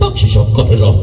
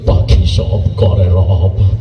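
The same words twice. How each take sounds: First: It is recited in a tough, aggressive way. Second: It is recited in a tearful, emotional way. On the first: "ও টিস করে এটা ঘুষি মেটে দিচ্ছে" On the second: "Manna আবার এটারে emotional দিয়ে কইল"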